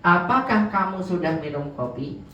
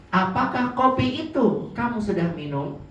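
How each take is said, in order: First: Said in the usual way. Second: Kopi stressed and pitched higher, a little slower; teacher contrasting the emphatic version, kopi leaned on; more emphatic. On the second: Shown as a demonstration. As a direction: hold on Apakah kopi to make the question firm. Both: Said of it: "Nah, itu lebih tegas ya".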